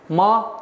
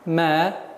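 First: The syllable is pronounced with a hard sound. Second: The syllable is pronounced with a soft sound. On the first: The speaker calls it wrong. "нет, ошибочное произношение" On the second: The speaker calls it right. "мягкий звук"

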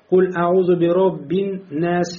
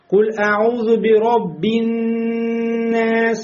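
First: The doubled n is short with no nasal hold. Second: The doubled n is held with nasal resonance. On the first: The speaker calls it wrong. "не просто куль аузу би роббиннас" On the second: The speaker calls it right. "Вот это ан, ан. Вот он выходит из носа"

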